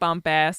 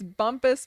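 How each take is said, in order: First: The name ends with an 'ass' sound. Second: The name ends with a 'pus' sound. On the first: The speaker calls it wrong. "not Bump Ass" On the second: The speaker calls it right. "We discovered that it's Bumpus"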